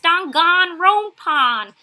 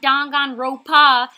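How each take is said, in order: First: Every sound of the word is pronounced fully. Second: Some sounds of the word are dropped. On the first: This is how the commenters say it should sound. The speaker calls it right. "It's Danganronpa" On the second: This is the speaker's own New York way of saying it. The speaker calls it wrong. "that's just my accent. We just don't say letters"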